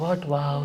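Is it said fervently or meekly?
meekly. It is said mildly, without fervor.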